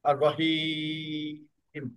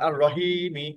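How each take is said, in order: First: The phrase ends on a bare consonant. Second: The phrase ends on a short vowel. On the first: The reader stops at this point. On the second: The reader continues without stopping.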